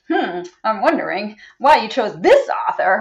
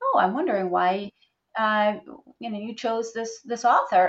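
First: The question sounds critical and judgmental. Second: The question sounds open and curious. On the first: The speaker implies the choice was wrong. The speaker calls it wrong. "as opposed to" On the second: The speaker genuinely wants to know the reason. The speaker calls it right. "I need to make sure I'm ready to ask it without that tone of voice"

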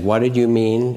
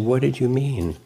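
First: The voice sounds upset and angry. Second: The voice sounds warm and caring. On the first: The speaker is defending themselves and trying to be right. The speaker calls it wrong. "In a kind of upset, angry way" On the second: The speaker wants to understand and listen. The speaker calls it right. "I want to understand. ... There's a caring in it"

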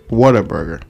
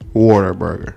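First: The first part sounds like what-a. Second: The first part sounds like the word water. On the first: It names the burger franchise. The speaker calls it right. "but I'm saying Whataburger" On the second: It sounds like a burger made of water. The speaker calls it wrong. "it's not like I'm saying Whataburger"

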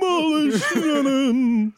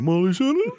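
First: It is said as a falling answer. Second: It is said as a rising question.

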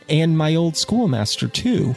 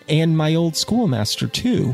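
First: The phrase is said with little enthusiasm. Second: The same.

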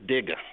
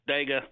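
First: The first vowel sounds like 'ih'. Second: The first vowel sounds like 'eh'. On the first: This is how it is really said. The speaker calls it right. "but it is Digga" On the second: This is how most outsiders say it. The speaker calls it wrong. "World says Dega"

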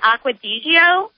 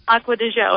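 First: The name is said as read in English. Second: The name is said with Italian pronunciation. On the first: The speaker calls it wrong. "I'm pronouncing it wrong" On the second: The speaker calls it right. "So it's like the Italian Acqua Digio"

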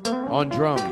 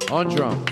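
First: The voice has only a little reverb. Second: The voice has more reverb added. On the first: "A little more" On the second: "A little more"

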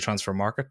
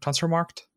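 First: The last word ends in a '-ket' syllable. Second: The last word ends in a clipped '-kt' sound. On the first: The speaker calls it wrong. "You don't say transfer market" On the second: The speaker calls it right.

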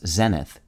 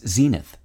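First: It is said in a British pronunciation. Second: It is said in an American pronunciation. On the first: "also pronounced in Canadian and British English as" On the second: "Today's word is zenith"

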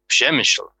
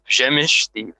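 First: An L sound is heard at the end. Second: No L sound is heard at the end. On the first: The speaker calls it wrong. "I mispronounced that right off the start" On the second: The speaker calls it right. "It's Przemysl. The L is somehow silent"

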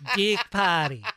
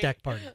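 First: The vowel in deck sounds like dick. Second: The vowel in deck sounds like plain deck.

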